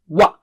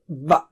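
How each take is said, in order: First: It begins with rounded lips, a w sound. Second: It begins with teeth on lip, a v sound. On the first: The speaker calls it right. "first circle and then wa" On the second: The speaker calls it wrong. "don't say it as V of English"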